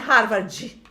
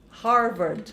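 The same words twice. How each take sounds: First: The word ends with an added vowel sound. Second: The final d is clipped with no added vowel. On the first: The speaker calls it wrong. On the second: The speaker calls it right.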